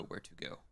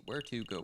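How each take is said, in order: First: "where to go" dropped much softer and lower; a softer second "where to go"; quiet muse. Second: Said in the usual way. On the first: Shown as a demonstration. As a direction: mutter "where to go" to yourself, fading.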